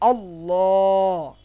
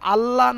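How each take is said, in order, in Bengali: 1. L ধ্বনিটি মোটা ও ভারী। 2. L ধ্বনিটি পাতলা ও হালকা। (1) "লামকে মোটা করে উচ্চারণ করতে হবে" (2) "আল্লাহ না বলে"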